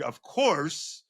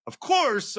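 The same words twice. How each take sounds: First: Said in the usual way. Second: Of course said much higher, stressed; emphatic repeat. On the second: Real, not acted. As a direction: push "course" way up in pitch.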